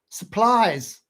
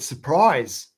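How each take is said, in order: First: The word is said with an l sound instead. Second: The word is said with a clear r sound. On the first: "she pronounced it like that" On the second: "every time she said surprise"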